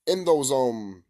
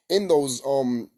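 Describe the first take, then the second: No difference in how they are said.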